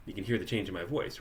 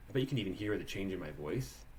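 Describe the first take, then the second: First: Said in the usual way. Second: Compressed voice. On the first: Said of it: "It's a very different quality in my voice". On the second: Shown as a demonstration. Teacher showing students a head-back, compressed voice. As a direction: voice a little squeezed, head pulled back and down. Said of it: "It's a little compressed".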